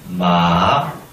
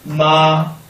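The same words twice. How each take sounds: First: It is said with the third tone. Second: It is said with the first tone. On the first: "삼성" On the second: "일성"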